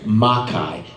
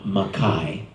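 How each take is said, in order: First: The stress is on the first syllable. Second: The stress is on the second syllable. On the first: The speaker calls it right. "the stress is on the first syllable" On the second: The speaker calls it wrong. "not Makai"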